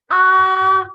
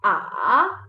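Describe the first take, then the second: First: The pitch stays level and long. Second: The pitch falls and then rises again. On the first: "It is a flat line on your syllable. All you have to do is simply stretch the syllable" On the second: "you're going down and then back up"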